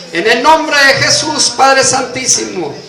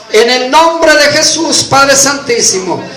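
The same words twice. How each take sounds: Both takes have the same delivery.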